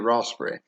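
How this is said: It is said in an English accent. "in most English dialects, ... you would say raspberry"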